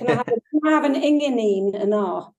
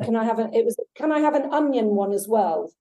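First: It is said in a Scottish Doric accent. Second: It is said in a plain English accent. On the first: "I can't do a Scottish accent, forgive me. He said" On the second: "the English is"

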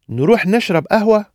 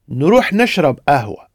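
First: It is said as a question. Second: It is said as a suggestion.

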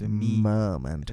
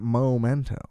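First: The first syllable sounds like 'meh'. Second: The first syllable sounds like 'moh'. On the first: The speaker calls it right. "It's Memento" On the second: The speaker calls it wrong. "You pronounce it weird. It's not Memento"

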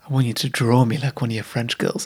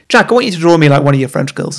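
First: It is said in a sultry, sexy way. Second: It is said in a plain, casual way.

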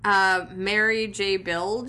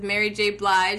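First: The surname is said like 'bilge'. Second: The surname is said like 'blige'. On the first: The speaker calls it wrong. "What was the one she totally mispronounced?" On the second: The speaker calls it right. "she repeats it in the correct way"

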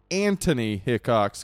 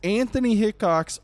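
First: Anthony is said with a plain 't' sound. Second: Anthony is said with a 'th' sound.

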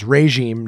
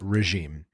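First: The first syllable sounds like 'ray'. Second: The first syllable does not sound like 'ray'. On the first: The speaker calls it right. "The first syllable is sounded as ray. So it's regime" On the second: The speaker calls it wrong. "not regime"

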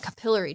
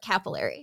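First: The word is pronounced the Canadian way. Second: The word is pronounced the American way. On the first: "I'm on a Canadian podcast, so I'm going to pronounce it a capillary tube" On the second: "In the US, we call it capillary"

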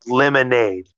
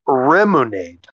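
First: The word begins with an L sound. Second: The word begins with an R sound. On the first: "the name of the ending theme is called Lemonade" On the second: "it's pronounced Remunade"

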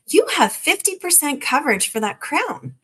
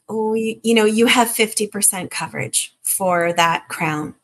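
First: The tone is bright and excited. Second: The tone is flat and downbeat. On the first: The coverage seems like good news. The speaker calls it right. "or a little more excitement" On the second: The coverage seems like bad news. The speaker calls it wrong. "The Debbie Downer way"

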